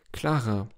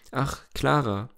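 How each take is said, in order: First: Fading lament. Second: A touch higher, sighing Ach, Clara with falling tune; despairing sigh. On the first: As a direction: let the name die away in mild despair. (Clara leise verhallend, leicht verzweifelt) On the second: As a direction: lament her name, mildly dissolved. (leicht seufzendes, klagendes Ach, Clara) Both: A narrator's reading. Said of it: "seufzte wie aufgelöst in trostlosem Jammer".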